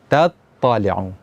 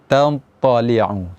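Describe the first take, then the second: Both takes have the same delivery.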